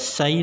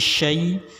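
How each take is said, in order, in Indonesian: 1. Diawali dengan bunyi s biasa. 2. Diawali dengan bunyi sh. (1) "tidak sai" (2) "syai pakai shin ya"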